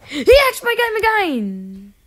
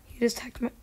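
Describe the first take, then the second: First: Higher, louder, slow furious yell; furious shout. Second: Said in the usual way. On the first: Real, not acted. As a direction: yell it at the hacker, outraged. Angry at a hacker.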